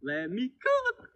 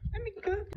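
First: Slow, soft, higher catchphrase. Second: Very soft, high whisper. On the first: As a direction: breathe it out softly. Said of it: "catchphrase, softer, slow". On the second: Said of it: "catchphrase, whispered high". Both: Pretend.

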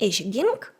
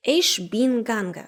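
First: Said in the usual way. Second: «ich bin gange» said slowly, ending on e; Hessian «ich bin gange». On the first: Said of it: "Замість". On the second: Shown as a demonstration. Teacher shows Hessian past tense, slow «ich bin gange» without final n. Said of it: "скажуть".

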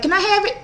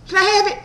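First: Imitated high, insistent plea; high mock-eager request; pushy woman impression. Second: High-pitched eager begging, imitated; mock-eager high voice; pushy woman impression. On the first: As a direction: mimic her asking, pitched way up. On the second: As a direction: mimic someone blurting out a request. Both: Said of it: "That's how she was talking".

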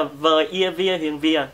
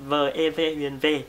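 First: "vìa" said with an ia glide; wrong vowel spelling. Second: "về" with a pure ê vowel, no glide; correct vowel spelling. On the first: Teacher spells out the wrong form, "vìa" with an ia glide. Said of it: "nó không có phải là". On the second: Teacher spells out the right form, slow "về" without glide. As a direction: slowly spell it out, ending on "về". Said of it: "mà nó là". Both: Shown as a demonstration.

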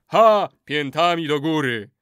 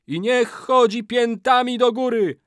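First: Loud, emphatic crowd echo; chorus response. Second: Very high, loud wailing cry; ritual curse. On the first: Warriors echo the final curse, loud chant. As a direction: exclaim and chant it back. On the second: Old man ends his curse, high loud wail. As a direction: cry the climax of the incantation. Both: A narrator's reading.

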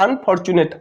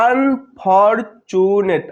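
First: Said in the usual way. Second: "unfortunate" very slowly in four separate beats; syllable by syllable. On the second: Shown as a demonstration. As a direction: stretch out each syllable of "unfortunate" with gaps. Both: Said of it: "চারবারে উচ্চারিত হচ্ছে".

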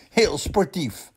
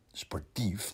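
First: Opgewekt sportief. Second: Sportief zacht en twijfelend, met een vragende stijging; zacht en spottend. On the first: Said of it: "zegt mama". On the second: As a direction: mompel sportief alsof je het niet gelooft. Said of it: "denkt hij". (Rientje denkt het zacht en spottend) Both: Acted.

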